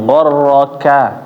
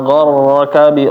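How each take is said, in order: First: The final 'ka' vowel is fully voiced. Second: The final 'ka' vowel is cut short. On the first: The speaker calls it right. "A-nya harus benar-benar jelas" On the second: The speaker calls it wrong. "jadi ka-nya kurang sempurna"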